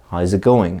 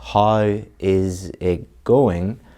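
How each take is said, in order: First: The words run together with a z sound. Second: Each word is said separately and fully. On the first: "This changes to a Z sound. This connects up, and this connects up" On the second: "the person is not saying"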